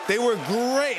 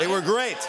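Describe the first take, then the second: First: Pure delight, higher again; excited, higher. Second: Excited. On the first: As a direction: repeat it louder and higher. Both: Real, not acted.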